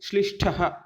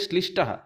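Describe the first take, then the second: First: The retroflex stop has a puff of breath. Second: The retroflex stop is plain, without a breath. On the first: The speaker calls it right. "ठ उच्चारण होता है" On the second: The speaker calls it wrong. "ठ के जगह ट वर्ण का प्रयोग कर लेते हैं"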